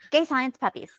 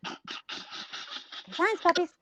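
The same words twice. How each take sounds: First: Said in the usual way. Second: Dreamy whisper. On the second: Pretend. Dreamy echo of the phrase.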